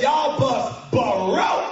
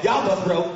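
First: Hugely stretched country drawl. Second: Quick country line. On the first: Mechanic declaring the bus dead, huge country drawl. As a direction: stretch it to the limit. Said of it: "extra syllables, it's for emphasis". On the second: Mechanic giving the mild verdict, country style. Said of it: "if that country dude came out and said". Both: Shown as a demonstration.

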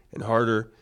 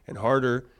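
No difference in how they are said.

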